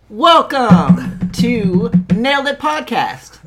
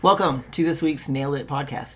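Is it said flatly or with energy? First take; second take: with energy; flatly. First: It is said with more energy and emotion. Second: It is said flatly, with no emotion.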